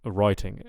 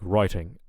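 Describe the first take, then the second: First: The middle t is a clear, crisp t sound. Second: The same.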